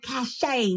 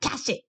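First: The word ends with an 'ay' sound. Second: The word ends with an 'it' sound. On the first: This is the standard pronunciation of the word. "it's probably supposed to be cachet" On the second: The character has an accent and learned the word from print. "because he's got an accent, he probably pronounces it cash it"

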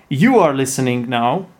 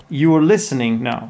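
No difference in how they are said.

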